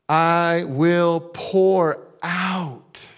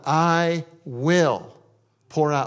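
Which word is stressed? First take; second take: pour; will. First: The word "pour" carries the main stress. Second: The word "will" carries the main stress. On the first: It comes in abundance, not in small amounts. "this isn't like little measures, little sprinkles" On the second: It is certain to happen. "It is going to happen"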